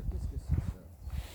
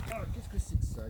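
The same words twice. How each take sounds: First: Slow whispered question; breathed out slowly, voiceless; hushed wonder. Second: High exclamation of surprise; amazed discovery. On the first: Hunter repeating his question over the find, whispering. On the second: Hunter finding something in the carcass, amazed. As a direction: pitch up in wonder. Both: Acted.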